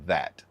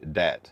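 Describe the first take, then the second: First: The word begins with a th sound. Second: The word begins with a d sound. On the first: The speaker is from the north. "closer to the northern, they they they enunciate th like that" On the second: The speaker is from the south. "southern people say dat, D A T"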